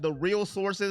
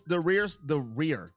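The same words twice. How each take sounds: First: "real" now said with a clear l at the end; "The real sources" with "real" stressed to fix the slip; correcting "real" with a clear l; self-correction. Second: "rear" said for "real", an r sound in place of the l; "the rear" said as the word rear; slowed "rear, the rear" said by mistake; slip of the tongue. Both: Real, not acted.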